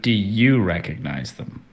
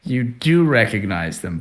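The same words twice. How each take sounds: First: "you" leaned on as a pointed question; pointed emphasis on "you"; stress on YOU. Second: "do" leaned on, rest falling away; firm emphasis on "do"; stress on DO. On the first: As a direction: put the weight on "you". Game master questions player's own recognition. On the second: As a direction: lean on "do" to confirm it. Game master contrasts recognition in story, player. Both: Real, not acted.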